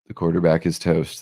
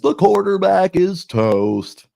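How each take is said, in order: First: It is said in a plain speaking voice. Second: It is said in a put-on announcer voice.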